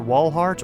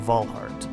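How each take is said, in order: First: The name starts with a W sound. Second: The name starts with a V sound.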